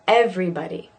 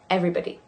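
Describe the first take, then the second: First: The word is said slowly and carefully. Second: The word is said at natural speed.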